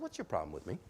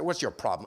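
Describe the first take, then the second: First: It is said in a calm, relaxed tone. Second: It is said in an angry, aggressive tone.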